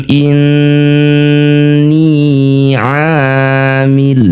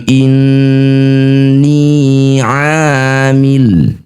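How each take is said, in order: Both takes have the same delivery.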